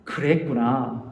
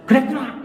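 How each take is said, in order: First: 그랬구나 low, soft and slow, falling gently; right way. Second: Higher, sharper quick 그랬구나; wrong way. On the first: Pastor shows congregation the right empathic way, soft and slow. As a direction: ease 그랬구나 down softly and slowly. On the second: Pastor shows congregation the wrong way, sharp. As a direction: snap 그랬구나 out high and short. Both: Shown as a demonstration. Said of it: "이게 아니라".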